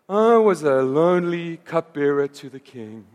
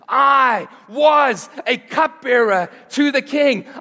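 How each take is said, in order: First: It is said gloomily, like Eeyore. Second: It is said confidently, like Nehemiah.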